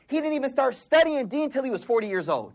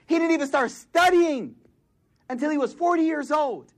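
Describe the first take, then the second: First: Said in the usual way. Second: "He didn't even start studying" pitched higher, pressed hard; higher emphatic repeat. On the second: Real, not acted. Preacher stressing Abu Hanifa's late start, higher and emphatic. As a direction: lift the line up and hammer "studying".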